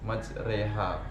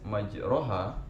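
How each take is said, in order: First: The vowel after r is tilted toward e. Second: The vowel after r is an open a. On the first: This is how the word is read in this recitation. "itu dibaca maj majreha" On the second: This is how the word is written. "Kata yang tertulis majroha"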